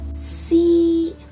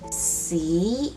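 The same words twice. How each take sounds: First: The syllable is said in the first tone. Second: The syllable is said in the second tone. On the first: The word means poem. "C in the first tone means poem" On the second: The word means poop. "C in the second tone means poop"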